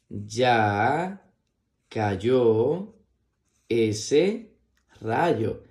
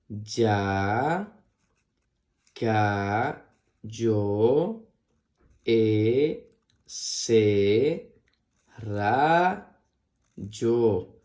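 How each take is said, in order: First: It is read quickly as one smooth phrase. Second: It is read slowly, one syllable at a time.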